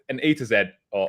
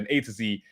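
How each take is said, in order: First: The letter Z is said as zed. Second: The letter Z is said as zee.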